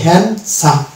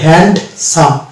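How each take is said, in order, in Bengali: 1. s-এর আগে কোনো d ধ্বনি শোনা যায় না। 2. s-এর আগে একটি d ধ্বনি শোনা যায়। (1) "এটা হচ্ছে হ্যান্ডসাম" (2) "ডি কে উচ্চারণ করলে হতো হ্যান্ডসাম"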